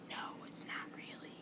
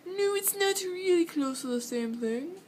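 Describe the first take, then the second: First: Whispered reply. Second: Higher, insistent retort; high protesting voice. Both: Retold or imitated. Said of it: "And I'm like".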